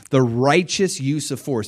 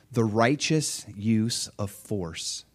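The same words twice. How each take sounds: First: Said in the usual way. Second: "the righteous use of force" said very slow and weighty; slow emphasis. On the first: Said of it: "everybody say righteous". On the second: Shown as a demonstration. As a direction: lean on "righteous", spelling it out slowly. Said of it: "everybody say righteous. Okay, very important".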